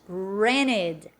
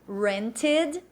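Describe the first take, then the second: First: The t sound is dropped. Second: The t sound is clearly pronounced. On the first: "North American English ... o T no inglês norte-americano ele some" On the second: "se for uma pronúncia mais marcada britânica desse T"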